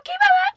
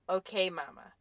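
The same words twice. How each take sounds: First: It is said in a high-pitched baby-talk voice. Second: It is said in a calm, even voice.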